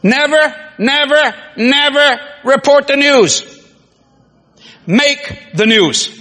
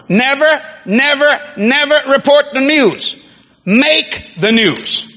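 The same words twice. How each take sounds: First: Never, never, never report the news, each never hit hard, then make the news slow; stress on never. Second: Never, never, never report the news, each never hit again, make the news drawn out slow; repeated stress on never. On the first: Preacher drilling the congregation, hammering each never. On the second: Preacher repeating his motto to the crowd, stress on never. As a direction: drive home the nevers a second time. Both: Shown as a demonstration. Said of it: "probably my best to myself".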